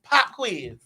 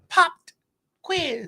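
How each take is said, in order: First: No t sound follows the word pop. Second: A distinct t sound follows the word pop. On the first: The speaker calls it right. "It's just pop quiz" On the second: The speaker calls it wrong. "why are you enunciating everything?"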